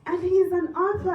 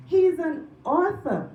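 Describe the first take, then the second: First: Said in the usual way. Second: "He's an author" slow, loud, falling; stress on He's. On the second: Real, not acted. Repeats for emphasis.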